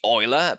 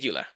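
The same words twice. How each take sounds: First: The name is said with German pronunciation. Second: The name is said with anglicized pronunciation. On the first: "The German pronunciation should be" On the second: "out of clarity, I'll just say"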